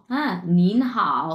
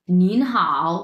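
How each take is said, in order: First: নিন হাও slowly drawn out, rising then dipping; slow nín hǎo. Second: Louder নিন হাও, rising নিন and dipping হাও; Chinese nín hǎo. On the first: Teacher repeats নিন হাও slowly so students catch it. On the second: Teacher models নিন হাও to the class, louder. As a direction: say নিন হাও clearly with Mandarin tones. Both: Shown as a demonstration.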